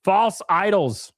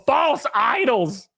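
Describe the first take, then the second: First: False idols drawn out slowly; slow dramatic catchphrase. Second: Stretched out slowly, weighty; slow dramatic catchphrase. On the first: Streamer repeating his slow mock-solemn catchphrase to chat. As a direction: intone it slowly like a verdict. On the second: Streamer branding his chat with a slow mock-preachy catchphrase. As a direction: lay it down slowly like a sermon. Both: Acted.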